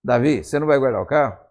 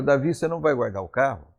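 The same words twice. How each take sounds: First: Mildly demanding question, imitating a nagging wife; mock nagging. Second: Mild, unpressured question to a husband; gentle wifely question. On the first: Wife confronts David about the car, in a mildly nagging tone. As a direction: press him as a wife normally would. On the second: Retold or imitated. Wife asks David about the car left outside, gently. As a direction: ask it gently, without pushing. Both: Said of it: "A entonação de voz já é diferente".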